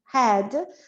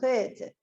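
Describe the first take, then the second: First: The vowel is said more open. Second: The vowel is said more closed. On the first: This is how it is usually said. "normalmente a gente usa a palavra head mais aberta" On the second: This is how the singer says it. "Ele fala head"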